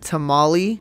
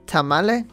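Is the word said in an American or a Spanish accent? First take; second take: American; Spanish. First: The word is said with an American pronunciation. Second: The word is said with a Spanish-style pronunciation.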